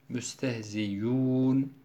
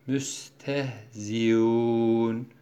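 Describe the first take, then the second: First: The middle glottal sound becomes a clear y sound. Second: The middle glottal sound is softened, like a glide. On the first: "hemze ya harfine, met harfine dönüşmüş oluyor" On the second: "teshil ile okuyor. Teshil, bu hemzeyi yumuşatarak okumak"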